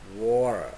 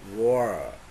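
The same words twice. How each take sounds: First: The t is a quick flap like r. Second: The t is a quick flap like r.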